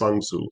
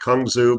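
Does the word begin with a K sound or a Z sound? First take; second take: Z; K. First: The word begins with a Z sound. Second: The word begins with a K sound. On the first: This is the proper way to say it. The speaker calls it right. "I believe the proper pronunciation is Zangzu" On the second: This is how most people say it. The speaker calls it wrong. "most of us pronounce it Kangzu"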